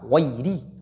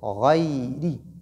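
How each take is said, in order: First: The y sound is cut short. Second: The y sound is held and continues. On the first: The speaker calls it wrong. "je ne dis pas ghayri" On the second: The speaker calls it right. "je dois laisser le son continuer"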